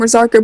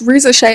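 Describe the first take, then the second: First: The name ends with a hard 'ker' sound. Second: The name ends with a soft 'shay' sound. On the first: The speaker calls it wrong. "I keep calling him Razarker" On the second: The speaker calls it right. "but it's Rizashay"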